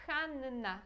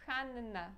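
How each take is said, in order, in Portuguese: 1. O som do n é longo e duplicado. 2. O som do n é longo e duplicado.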